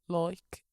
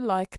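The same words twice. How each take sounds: First: Said in a regional accent. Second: Said in a generic accent. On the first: "I used to say like" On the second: "I say like now"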